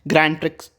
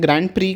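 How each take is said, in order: First: The final x sound is pronounced. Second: The final x sound is silent. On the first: The speaker calls it wrong. "इसको प्रिक्स नहीं कहते हैं" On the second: The speaker calls it right. "Grand प्री कहते हैं, एक्स is the silent here"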